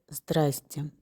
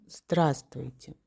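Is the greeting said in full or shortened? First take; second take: shortened; full. First: The greeting is said with two syllables. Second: The greeting is said with three syllables. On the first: "Это беглое произношение" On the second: "Мы говорим «здравствуйте»"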